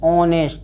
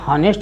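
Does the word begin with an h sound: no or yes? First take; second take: no; yes. First: The word starts with a vowel, no h sound. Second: The word starts with an audible h sound. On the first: The speaker calls it right. "ऑनेस्ट पढ़ेंगे" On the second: The speaker calls it wrong. "ये हॉनेस्ट नहीं पढ़ेंगे"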